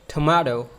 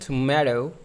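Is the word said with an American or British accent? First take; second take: British; American. First: The word is said in a British accent. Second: The word is said in an American accent. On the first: "the other accent that is British one" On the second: "that one is an American accent"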